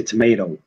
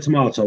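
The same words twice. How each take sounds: First: Tomato with an AY in the middle, to-MAY-to; American tomato. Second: Tomato with a long AH in the middle, to-MAH-to; British tomato. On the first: British man mimicking how Americans say it, American "tomayto". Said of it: "they say tomato". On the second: British man showing the American how his side says it, British "tomahto". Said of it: "We, we said tomato". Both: Shown as a demonstration.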